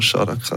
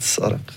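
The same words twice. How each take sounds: First: The name begins with a 'sh' sound. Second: The name begins with an 's' sound. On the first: This is the band's old name. The speaker calls it wrong. "ich habe immer noch das «Sch» von Saraka" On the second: This is the band's current name. The speaker calls it right. "statt Saraka"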